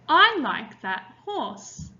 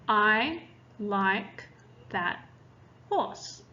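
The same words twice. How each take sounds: First: It is read with lively, varied expression. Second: It is read flatly, like a robot. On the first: The reader makes the story sound interesting. "When we use expression, we sound like this" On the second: The reader is still learning the words. "we read it like a robot"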